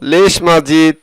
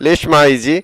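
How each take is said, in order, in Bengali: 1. বাক্যটি ড ধ্বনি দিয়ে শেষ হয়। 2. বাক্যটি স্বরধ্বনি দিয়ে শেষ হয়। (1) "আমরা বলবো লেশ মাজিদ" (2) "আমরা বলবো না লেশ মাইজি"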